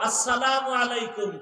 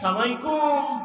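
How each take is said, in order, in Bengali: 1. শুভেচ্ছাটি প্রতিটি শব্দাংশসহ পুরোটা বলা হয়। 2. শুভেচ্ছাটি ছোট হয়ে একটানা একটি শব্দের মতো বলা হয়। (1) "আগে সালাম দাও" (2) "সালামালাইকুম না না"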